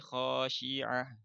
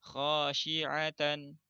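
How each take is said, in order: First: The word ends with a final h sound. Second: The word ends with a final n sound. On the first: The reading stops at this word. "Tapi kalau wakaf jadi khasyi'ah" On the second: The reading continues without stopping. "ini tanwin"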